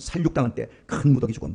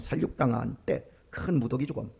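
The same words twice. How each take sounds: First: It is read vividly with dramatic energy. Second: It is read softly and plainly.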